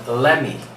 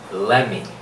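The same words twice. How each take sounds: No difference in how they are said.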